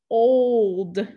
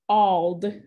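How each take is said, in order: First: The o is a long vowel sound. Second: The o is a short vowel sound. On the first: The speaker calls it right. "If I put a macron" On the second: The speaker calls it wrong. "if I put a brief here"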